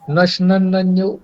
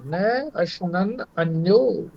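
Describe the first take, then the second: First: The words are run together without separation. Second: The words are kept separate from each other. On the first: It sounds like something gets destroyed. The speaker calls it wrong. "यदि हम इसको ये पढ़ें नशनन नन्यो, तो ये समझ में आएगा कि इसका नाश हो जाता है" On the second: The other one does not eat. The speaker calls it right. "न को अलग करना है"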